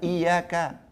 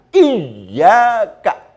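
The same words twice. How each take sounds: First: The y sound is short and single. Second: The y sound is held long and doubled. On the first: The speaker calls it wrong. "Jangan kemudian ini hanya dibaca iyyaka tanpa tasdid" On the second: The speaker calls it right. "Tasdidnya harus ditampakkan"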